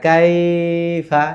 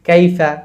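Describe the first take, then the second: First: The 'ai' vowel is drawn out long. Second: The 'ai' vowel is said quickly and softly. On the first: The speaker calls it wrong. "কাইফা বলা যাবে না কাইফা, এরকম আমরা বলবো না" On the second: The speaker calls it right. "আমরা বলবো কাইফা"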